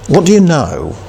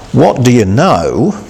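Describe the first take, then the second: First: "you" pushed higher as the peak; emphasis on you. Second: "What" leaned on, slow and drawn out; emphasis on what. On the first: Preacher repeating the question, stressing you. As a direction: lift and press "you". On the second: Preacher echoing a monologue question, stressing what. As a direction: press the word "What" slowly. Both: Retold or imitated. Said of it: "a certain degree of emphasis on this particular question".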